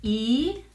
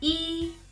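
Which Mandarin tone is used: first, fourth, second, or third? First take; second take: second; first. First: The syllable is said with the second tone. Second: The syllable is said with the first tone. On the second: "this is the first tone"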